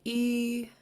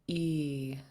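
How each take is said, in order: First: The long vowel is said on a high pitch. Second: The long vowel is said on a low pitch. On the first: "And then high tone" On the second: "And now a long version"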